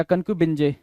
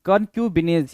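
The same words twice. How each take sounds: First: कनक्यूबिनजे ending in "-bin-jay"; alternative pronunciation. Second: कनक्यूबिनेज ending in a long "-neez" with a z; pronunciation variant. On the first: (कनक्यूबिनजे के अंत में "जे" की ध्वनि) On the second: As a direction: say कनक्यूबिनेज with a final z sound, no "je". (कनक्यूबिनेज के अंत में "ज़" की ध्वनि) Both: Shown as a demonstration. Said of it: "कुछ लोग कनक्यूबिनजे भी बोलते हैं".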